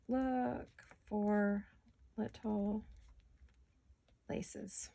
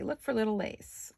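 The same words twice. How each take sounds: First: Dictating slowly, fading out. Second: Said in the usual way. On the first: Shown as a demonstration. Crafter dictating her shopping list, spacing the words and fading to a whisper. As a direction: Look for little laces spoken word by word as she writes, trailing to a whisper. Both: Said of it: "I'm gonna say".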